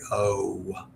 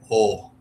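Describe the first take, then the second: First: The O vowel is long and drawn out. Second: The O vowel is short and clipped. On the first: "typical American O's are very O" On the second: "the O's are much shorter"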